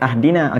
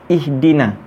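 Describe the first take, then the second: First: The word begins with an a vowel. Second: The word begins with an i vowel. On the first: The speaker calls it wrong. "Kalau nak bunyi ahdina, ingat kena ada alif lam" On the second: The speaker calls it right. "Kenapa kita bunyi dia ihdina?"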